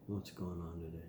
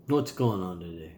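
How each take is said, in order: First: Far softer, almost under the breath; quiet murmured echo; much softer repeat. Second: Said in the usual way. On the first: Shown as a demonstration. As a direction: drop it right down. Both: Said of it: "repeated softer".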